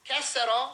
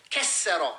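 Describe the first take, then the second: First: Said in the usual way. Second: "Kesero" with the middle consonant held hard; forceful, weighted "Kesero"; intensified pronunciation. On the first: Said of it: "Oh, he broke it". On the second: Shown as a demonstration. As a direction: punch and hold the doubled consonant in "Kesero". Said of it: "it intensifies it".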